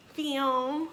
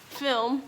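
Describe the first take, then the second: First: "film" with the L swallowed, like "fim"; "film" without clear L. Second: Said in the usual way. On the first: Real, not acted. Vlogger stumbling on the word, "film" said as "fim". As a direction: say "film" as "fim", lifting at the end. Repeats film to fix its pronunciation.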